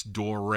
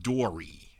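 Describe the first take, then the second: First: Dore said as one syllable, like door-ay without the final y sound; Dore, not Dory; correct pronunciation. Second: Dory said like the name, ending in an ee sound; Dory, the mistaken version; common mispronunciation. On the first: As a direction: say Dore the right way, firmly. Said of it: "it's pronounced Dore". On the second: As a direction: say Dory the wrong way people do. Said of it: "A lot of people say Dory". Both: Shown as a demonstration.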